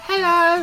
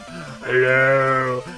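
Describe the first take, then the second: First: It is said in an ordinary, unlowered voice. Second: It is said in a very deep, masculine voice. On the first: The speaker is greeting as themself. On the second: The paint pot is greeting back.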